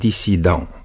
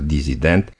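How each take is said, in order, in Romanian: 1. Consoana din mijloc este un s surd. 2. Consoana din mijloc este un z sonor. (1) "se scrie cu doi S, deci pronunțăm dissident" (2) "pronunț adesea disident"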